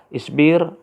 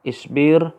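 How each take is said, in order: No difference in how they are said.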